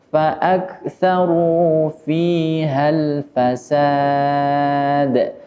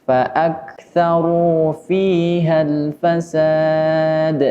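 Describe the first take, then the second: Both takes have the same delivery.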